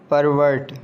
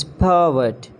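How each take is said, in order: First: "Pervert" as PAR-vurt with both Rs; mispronounced pervert. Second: "pervert" as PUH-vut; British pronunciation. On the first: Acted. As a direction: sound the Rs in "Pervert". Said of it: "not pervert". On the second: Shown as a demonstration. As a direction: drop the Rs in "pervert". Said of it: "It's pervert".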